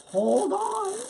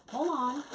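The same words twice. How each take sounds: First: Louder hold on. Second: Said in the usual way. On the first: Real, not acted. Crafter halts her own plan on stream, loud and high. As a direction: hold ON called out higher and louder.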